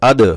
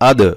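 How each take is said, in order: First: The d is pushed out with an echoing bounce. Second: The d is pushed out with an echoing bounce.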